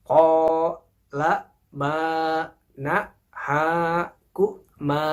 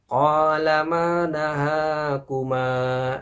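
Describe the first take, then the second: First: The phrase is read slowly and carefully. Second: The phrase is read quickly and fluently. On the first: The reader is still learning. "bacanya jangan terburu-buru. Pelan-pelan saja ya" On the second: The reader is already fluent. "Untuk baca cepat, ... bisa cepat bacanya. Seperti ini"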